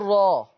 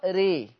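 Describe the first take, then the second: First: The vowel after r is a fully open a. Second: The vowel after r leans strongly toward ee. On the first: "لو هفتح الراء هقول راء" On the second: "ولو انا هعمل امالة كبرى ري"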